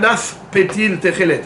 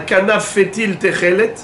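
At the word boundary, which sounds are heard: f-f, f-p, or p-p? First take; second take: f-p; f-f. First: An f sound is followed by a p sound. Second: An f sound is followed by another f sound. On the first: The speaker calls it right. "Un kanaf, à la fin, c'est fait. Et pétil, c'est paix" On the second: The speaker calls it wrong. "il y en a qui vont dire"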